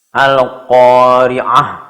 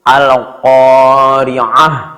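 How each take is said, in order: First: The word ends with a soft h sound. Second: The word ends with a soft h sound.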